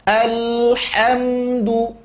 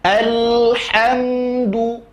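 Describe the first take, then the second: No difference in how they are said.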